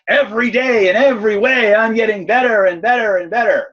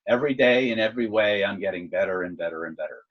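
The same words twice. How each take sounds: First: It is said as an excited, energetic exclamation. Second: It is said as a calm, plain statement.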